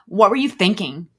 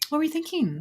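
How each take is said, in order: First: It is asked in a harsh, accusing tone. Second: It is asked in a gentle, compassionate tone.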